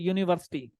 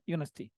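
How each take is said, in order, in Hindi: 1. शब्द की हर ध्वनि बोली गई है। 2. शब्द की एक ध्वनि छोड़ दी गई है।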